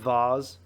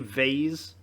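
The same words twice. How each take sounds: First: It is said in a British accent. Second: It is said in an American accent.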